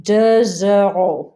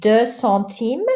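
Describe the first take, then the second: First: Deux euros slow, a Z sound linking into euros; Z liaison. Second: Deux centimes slow, no sound after Deux; no liaison. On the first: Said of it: "the X sounds like a Z". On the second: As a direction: keep Deux open before centimes. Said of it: "Don't pronounce the X". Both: Shown as a demonstration. Teacher practicing liaison with students.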